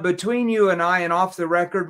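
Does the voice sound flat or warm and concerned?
flat. The voice is flat and mechanical, without feeling. The speaker sounds detached and uninterested. The speaker calls it wrong. "If you stand straight up like a robot and say"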